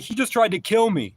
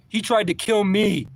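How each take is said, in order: First: Much higher, loud, panicked yell; retold yell. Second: High, loud, slow and insistent; retold slower yell. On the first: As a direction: cry it out to the driver. Yelling at the driver. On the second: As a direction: hammer the words home, slowly. Yelling at the driver again.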